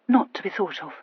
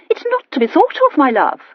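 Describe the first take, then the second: First: A mild, stifled hurt repeating them; suffocated voice. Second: High, breezy dismissal; lightly voiced chattering aunt, brushing it off; dismissive aunt. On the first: A narrator's reading. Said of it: "said Elizabeth in a suffocated voice".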